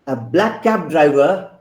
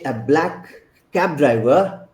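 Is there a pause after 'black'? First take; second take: no; yes. First: 'Black cab' is said together without a pause. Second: There is a pause after 'black'.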